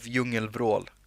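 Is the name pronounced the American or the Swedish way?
Swedish. It is said with a Swedish pronunciation.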